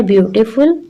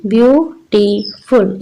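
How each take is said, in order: First: Said in the usual way. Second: ब्यूटीफुल slowly in three parts, "byu - ti - ful"; slow three-beat ब्यूटीफुल; split into syllables. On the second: Shown as a demonstration. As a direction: break ब्यूटीफुल into three even beats. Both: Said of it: "इसमें तीन syllables हैं".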